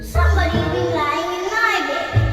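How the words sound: A medium voice of the middle bear.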